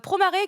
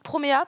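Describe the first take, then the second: First: The name ends with an r sound. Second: The name ends without an r sound.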